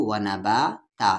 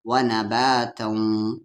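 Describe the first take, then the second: First: व ना बा ता ending on open long aa; stopping form. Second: व ना बा तऊं slow, ending in held nasal hum; merged with ghunna. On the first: Teacher showing the pause form, ता ending open. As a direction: end ता open, no nasal, and stop. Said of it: "और रुकेंगे तो". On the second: Teacher showing non-stop reading, slow nasal तऊं. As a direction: draw out तऊं through the nose. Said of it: "इदगाम with गुन्ना हो जाएगा". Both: Shown as a demonstration.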